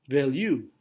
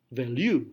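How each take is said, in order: Both takes have the same delivery.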